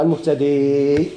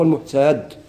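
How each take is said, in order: First: The word ends with a long 'ee' vowel. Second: The word ends without the final long vowel. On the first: The word is joined to what follows. "عند الوصل يقولوا المهتدي ويزيدوا حال" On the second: The reader pauses on this word. "لو وقفوا يقولوا فهو المهتد يحذفوها"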